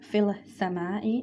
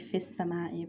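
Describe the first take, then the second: First: An L sound is heard before the S. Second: The L is dropped into a doubled S. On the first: The speaker calls it wrong. "we're not going to write fil sama'i" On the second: The speaker calls it right. "it's going to be fis sama'i because it's a Shamsi letter"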